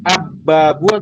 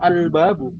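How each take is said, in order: First: The l merges into a doubled b. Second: The article keeps a clear l sound. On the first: The speaker calls it wrong. "kalau abbabu sulit" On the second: The speaker calls it right. "otomatis kita bilangnya al-babu"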